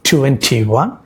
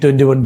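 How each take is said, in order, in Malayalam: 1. ഇത് ശക്തമായ സ്ട്രെസോടെ മനഃപൂർവം എണ്ണുന്നു. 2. ഇത് സ്ട്രെസ് ഇല്ലാതെ വേഗത്തിൽ എണ്ണുന്നു. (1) "സ്ട്രെസ് കൊടുത്ത് എണ്ണാൻ പറഞ്ഞു. എങ്ങനെ?" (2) "കുട്ടികൾ വളരെ സ്പീഡിൽ എണ്ണി"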